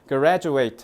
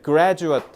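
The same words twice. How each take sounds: First: The final syllable sounds like 'eight'. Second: The final syllable is a short 'it' sound. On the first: It is a verb meaning to graduate. "graduate 하면 졸업하다예요" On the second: It is a noun meaning a person who graduated. "graduate 하면은 졸업생이고요"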